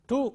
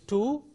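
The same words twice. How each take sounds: First: The word has a weak, reduced vowel. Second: The word has a full, strong vowel. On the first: "weak form is" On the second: "Strong form is"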